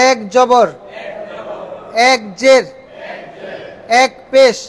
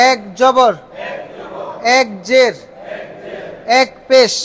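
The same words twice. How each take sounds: The two takes are said the same way.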